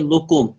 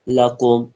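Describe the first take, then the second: First: The first vowel is an 'u' sound. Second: The first vowel is an 'a' sound. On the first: The speaker calls it wrong. "बहुत सारे लोग कहते हैं लुकुम, लाम पे पेश नहीं है" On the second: The speaker calls it right. "लाम पे जबर है। लकुम जबर की आवाज ऊपर की तरफ जाती है"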